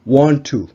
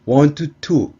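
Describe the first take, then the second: First: The two t sounds merge into one. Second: Both t sounds are pronounced separately. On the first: The speaker calls it right. "한 번만 발음하듯이" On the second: The speaker calls it wrong. "굳이 이렇게 발음하실 필요는 없습니다"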